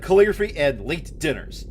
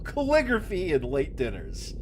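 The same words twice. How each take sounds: First: It is read in a plain serious voice. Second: It is read in a put-on silly voice. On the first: "If I had to voice him seriously" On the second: "I actually came up with the voice"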